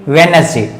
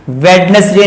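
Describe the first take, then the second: First: वेडनेसडे said as "wen-es-day"; corrected वेडनेसडे, no d before n; silent D. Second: वेडनेसडे with the D sounded; wrong pronunciation. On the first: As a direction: drop the first d in वेडनेसडे. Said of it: "ये क्या पढ़ेंगे". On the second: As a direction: incorrect वेडनेसडे, d before n pronounced. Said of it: "वेडनेसडे नहीं". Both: Shown as a demonstration.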